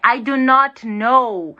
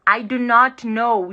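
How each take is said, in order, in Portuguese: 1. A negativa é dita por extenso, três palavras separadas. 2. A negativa é dita por extenso, três palavras separadas.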